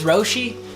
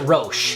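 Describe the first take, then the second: First: The name ends in an ee sound. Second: The name does not end in an ee sound. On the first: This is how the speaker always thought it was said. "I always thought it was Roshi, like Yoshi" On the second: This is how a store worker said it. "the worker there pronounced it Roche"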